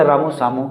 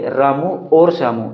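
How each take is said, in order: First: Said in the usual way. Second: और said with a clear push between the names; stress on और. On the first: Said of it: "इनके बीच में और लगाने की कमी". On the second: Shown as a demonstration. Teacher showing students the और between the names, stressed. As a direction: lean on और in Ramu और श्यामू. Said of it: "इनके बीच में हम और लगा लें".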